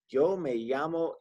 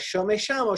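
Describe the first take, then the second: First: The word begins with a smooth y sound. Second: The word begins with an sh sound. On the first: "kind of how we'd say the Y in you" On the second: "where I lived in Argentina, they pronounce it like a sh"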